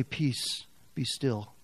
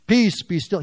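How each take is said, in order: First: Softer, tender hush; gentle soothing. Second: Louder firm command to the storm; calm the storm with authority. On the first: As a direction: soothe a frightened listener. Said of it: "God wants to say". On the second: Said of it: "Remember what he said?". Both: Acted.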